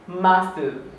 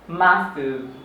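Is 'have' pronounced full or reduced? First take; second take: reduced; reduced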